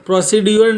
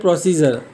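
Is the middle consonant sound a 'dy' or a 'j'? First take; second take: dy; j. First: The middle consonant is a separate 'dy' sound. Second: The middle consonant is a single 'j' sound. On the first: The speaker calls it wrong. "નહીં" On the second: The speaker calls it right. "પણ શું બોલાય પ્રોસીજર"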